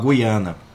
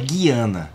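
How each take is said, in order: First: The U after the G is pronounced. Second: The U after the G is silent. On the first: "cujo U se pronuncia segundo o dicionário Hawes" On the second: "mas em Portugal é Guiana"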